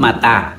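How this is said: The vowels are a then a. This is the A A dialect form. "A A menyebut mata"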